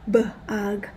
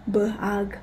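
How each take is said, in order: No difference in how they are said.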